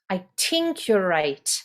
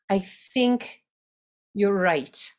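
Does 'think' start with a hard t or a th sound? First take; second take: hard t; th. First: Think starts with a hard t sound. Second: Think starts with a th sound. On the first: The character has a thick Dublin accent. "think turns to tink" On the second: The character has a lighter Irish accent. "we're going to drop that rule. And they're going to say think"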